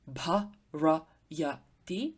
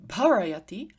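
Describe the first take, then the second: First: Bharayati drawn out slowly, bha-ra-ya-ti each syllable separate. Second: Said in the usual way. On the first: Shown as a demonstration. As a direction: spell out bharayati slowly so the light first syllable is heard. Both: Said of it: "would have a light first syllable".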